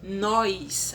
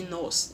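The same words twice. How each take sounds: First: "nós" stretched into "nóis", with an i glide; slow "nóis" for "nós"; colloquial nóis. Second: Said in the usual way. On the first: Shown as a demonstration. Teacher giving the spoken form, "nós" as "nóis". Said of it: "ao invés de nós". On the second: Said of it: "ao invés de".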